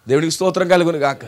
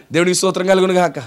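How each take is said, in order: Both takes have the same delivery.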